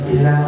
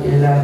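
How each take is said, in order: The two takes are said the same way.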